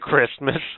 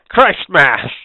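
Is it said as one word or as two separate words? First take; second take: one word; two words. First: It is said as one ordinary blended word. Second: It is said as two words, Christ and Mass. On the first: "Instead of Christmas" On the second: "Exactly how they should have pronounced it originally, Christ Mass"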